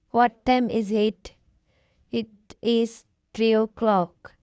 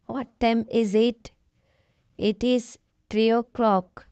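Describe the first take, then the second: No difference in how they are said.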